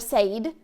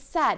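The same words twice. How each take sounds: First: The vowel is not a short E sound. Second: The vowel is a short E sound. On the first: The speaker calls it wrong. "or said" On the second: The speaker calls it right. "It's making a short E sound"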